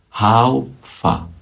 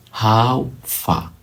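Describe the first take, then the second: No difference in how they are said.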